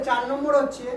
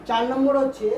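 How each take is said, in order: Both takes have the same delivery.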